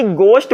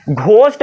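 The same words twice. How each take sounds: First: "गोश्त" as gost, plain hard G; silent H. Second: "घोस्ट" with a breath after the G, louder; wrong aspirated GH. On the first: Teacher offers the other choice, plain G in "गोश्त". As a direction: start "गोश्त" on G without any breath. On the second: Teacher quizzes students on ghost, aspirated GH in "घोस्ट". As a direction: puff out the GH in "घोस्ट". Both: Shown as a demonstration. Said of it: "घोस्ट बोलोगे कि गोश्त बोलोगे".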